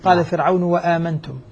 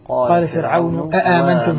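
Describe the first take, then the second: First: The word after Firawn begins with a w sound. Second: The word after Firawn begins with a glottal stop. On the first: The word is joined to the word before it. "إن وصل هذه الكلمة بما قبلها أبدلت واوا" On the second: This is the original form of the word. "بالأصل"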